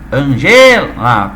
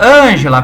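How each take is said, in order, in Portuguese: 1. A tônica fica em uma sílaba posterior. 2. A tônica fica na primeira sílaba. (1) "Tu vai falar Ange, Angela" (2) "tu não pode falar desse jeito"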